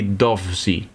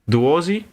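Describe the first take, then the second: First: The V is sounded as a consonant V. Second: The V is sounded like a U vowel. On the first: "if it's uh, differently pronounced" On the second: "if this is like an Italian V where it becomes a U"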